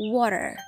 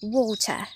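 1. พูดด้วยสำเนียงอเมริกัน 2. พูดด้วยสำเนียงอังกฤษ (1) "ถ้าเป็นอเมริกัน" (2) "คำว่าน้ำเขานี่อังกฤษนะคะ"

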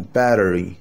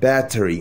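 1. يُقال بطريقة أمريكية مريحة وغير رسمية. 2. يُقال بطريقة متأنية وقياسية.

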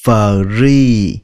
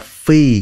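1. Từ này có âm r rõ ràng sau f. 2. Âm r bị bỏ, nên nghe giống fee. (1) "các bạn đọc là free" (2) "Không phải là phi"

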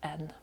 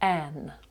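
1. Голосний короткий, редукований і ненаголошений. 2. Голосний повний, відкритий і наголошений. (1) "Без наголосу – коротше" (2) "в наголошеному складі форма N буде вимовлятися ширше"

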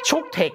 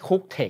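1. พยางค์แรกออกเสียงเหมือน chuk 2. พยางค์แรกออกเสียงเหมือน cook (1) "ด้วยนะไม่ใช่" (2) "ไม่ใช่"

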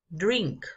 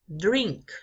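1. La D se hace con la lengua en el paladar. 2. La D se hace con la lengua en el paladar.

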